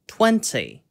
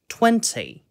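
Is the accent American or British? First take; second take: British; British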